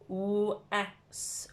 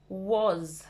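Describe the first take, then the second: First: It is said just as its letters blend. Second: It is said with its usual spoken sound. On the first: The speaker calls it wrong. "If we blend it" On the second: The speaker calls it right. "we say was"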